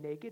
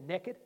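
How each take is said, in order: First: It is said in a northern US accent. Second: It is said in a southern US accent.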